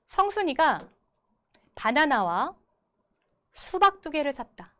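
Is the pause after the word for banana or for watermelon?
banana. The pause falls after the word for banana. Three fruits were bought: a banana and two watermelons. "다르게 끊어 읽어보겠습니다"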